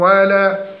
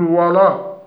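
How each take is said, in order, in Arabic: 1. تُنطق الواو واللام مرققتين. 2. تُنطق الواو واللام مفخمتين. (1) "والصحيح ترقيق الواو واللام" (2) "تفخيم الواو واللام، نقول ولا"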